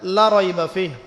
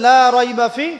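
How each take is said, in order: First: The vowel of "la" is cut short. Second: The vowel of "la" is drawn out long. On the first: There is certainly doubt in the book. The speaker calls it wrong. "মদ করেন নাই, লাই আপনি টানেন নাই" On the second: There is no doubt in the book. The speaker calls it right. "এই যে আপনি পড়ছেন লা রাইবা ফি, ঠিক আছে"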